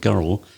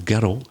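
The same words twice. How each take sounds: First: Girl is said in a standard accent. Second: Girl is said in a Scottish accent.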